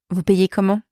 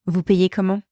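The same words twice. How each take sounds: The two takes are said the same way.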